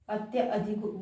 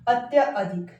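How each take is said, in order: First: The second vowel is a short a. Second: The second vowel is a long aa. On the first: The speaker calls it right. "अत्यधिक word जो है होता है" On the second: The speaker calls it wrong. "अब यहाँ पर आ की sound आ रही है"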